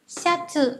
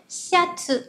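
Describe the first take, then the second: The two takes are said the same way.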